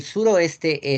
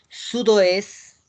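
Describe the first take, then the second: First: Said in the usual way. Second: Slow French sudoeste, "sud-wes"; silent T. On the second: Shown as a demonstration. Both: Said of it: "La T no se pronuncia".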